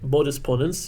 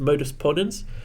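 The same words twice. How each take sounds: First: The term is pronounced the Latin way. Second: The term is pronounced the English way.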